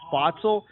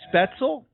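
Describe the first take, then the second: First: The first vowel sounds like 'ah'. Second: The first vowel sounds like 'eh'. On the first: The speaker calls it wrong. "I've been pronouncing the brewery's name wrong. I've been calling it" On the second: The speaker calls it right. "but it's uh"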